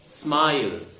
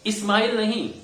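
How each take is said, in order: First: स्माइल straight on the s; right smile. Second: स्माइल with an added i, इस्माइल; the mistake; wrong smile. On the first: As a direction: clean cluster. (सही स्माइल) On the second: (गलत इस्माइल) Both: Shown as a demonstration.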